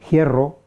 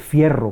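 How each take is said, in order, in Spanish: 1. La palabra empieza con una h aspirada. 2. La palabra empieza con una f. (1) "la conservación de alguna manera de la F inicial en forma de aspiración" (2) "no se dice fierro"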